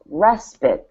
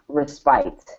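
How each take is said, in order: First: The second syllable has a short I sound. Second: The second syllable has a long I sound. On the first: The speaker calls it right. "it's respite" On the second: The speaker calls it wrong. "it's not respite"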